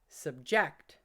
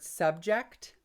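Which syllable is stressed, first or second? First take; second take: second; first. First: The stress is on the second syllable. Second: The stress is on the first syllable. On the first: It is a verb. "subject as a verb" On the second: It is a noun. "subject as a noun"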